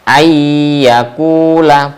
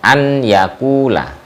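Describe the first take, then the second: First: The n merges into a doubled y sound. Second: The n is heard separately before the y. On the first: The speaker calls it right. "itu bacanya ayyakula" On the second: The speaker calls it wrong. "bukan an yakula"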